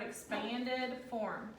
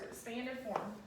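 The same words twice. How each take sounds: First: Expanded form drawn out slowly; slow emphasis. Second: Said in the usual way. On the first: Shown as a demonstration. Teacher stressing term for students to underline. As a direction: stretch out expanded form word by word. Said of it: "underline this word". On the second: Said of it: "Underline those words".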